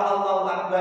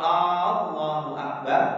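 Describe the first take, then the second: First: The first vowel of Allahu is short. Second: The first vowel of Allahu is drawn out long. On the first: God is the greatest. The speaker calls it right. "Yang harusnya dibaca Allahu Akbar" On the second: It asks whether God is the greatest. The speaker calls it wrong. "tidak boleh memanjangkan bacaan a-nya, hamzahnya"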